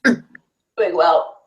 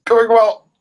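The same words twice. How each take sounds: First: Tight voice holding breath. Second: High, loud, strained on held breath; holding breath. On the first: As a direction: talk with lungs full. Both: Real, not acted. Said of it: "hold your breath with me".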